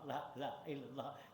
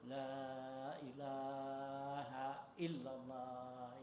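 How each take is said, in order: First: The vowels are clipped and said quickly. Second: The vowels are drawn out and lengthened. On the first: The speaker calls it wrong. "jangan pendek aja" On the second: The speaker calls it right. "disuruhnya tuh"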